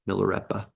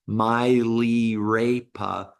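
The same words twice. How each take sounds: First: The vowels are kept short and soft. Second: The vowels are drawn out long. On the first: The speaker calls it right. "all of the vowels are soft as opposed to long" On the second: The speaker calls it wrong. "It's not"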